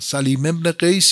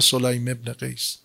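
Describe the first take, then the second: First: The name is said with the vowels a and i. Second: The name is said with the vowels o and ay. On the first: "وزن فعیل" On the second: "به صورت فعیل میخوندن"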